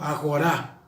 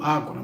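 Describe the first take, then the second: First: The stress is on the last syllable. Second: The stress is on the first syllable.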